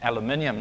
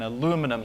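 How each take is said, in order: First: It is said the British way. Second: It is said the American way. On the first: "The British would say" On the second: "what the Americans would call"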